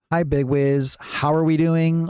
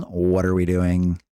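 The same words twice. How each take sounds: First: High, drawn-out sing-song greeting; imitated chatter greeting. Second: Low, drawn-out monotone question; imitated chatter question. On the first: Streamer quoting a chatter's greeting back, imitated high and slow. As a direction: imitate a greeting pitched up and stretched out. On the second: Streamer quoting a chatter's question back, imitated low and slow. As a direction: imitate the question pitched down and stretched out. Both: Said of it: "Whenever you say, for example".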